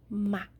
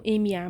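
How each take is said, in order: First: Ma said slowly as one joined syllable; slow, joined ma in one breath. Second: M and A said as two separate letters; letter by letter, M then A. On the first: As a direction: blend M and A into a single slow ma. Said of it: "Não M A, mas sim ma". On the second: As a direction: split M A into two distinct sounds. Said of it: "mas sim ma". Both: Shown as a demonstration.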